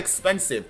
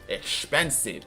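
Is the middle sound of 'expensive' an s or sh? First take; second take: s; sh. First: The middle sound is a plain s. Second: The middle sound is an sh. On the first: The speaker calls it wrong. "Not expensive" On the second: The speaker calls it right. "Like with the S H sound"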